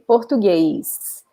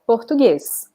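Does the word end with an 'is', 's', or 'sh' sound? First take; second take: is; s. First: An added ee sound comes before the final s. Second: The final s sounds like a plain s. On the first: This is how some people in Brazil say it. "putting like an E sound before the S" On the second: This is how most people in Brazil say it. "in Brazil, in general, we say just the s sound"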